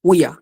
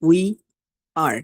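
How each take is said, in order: First: The two words are blended into one short word. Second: Both words are said fully and separately.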